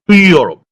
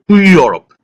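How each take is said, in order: First: The word 'to' has a light, reduced vowel. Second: The same.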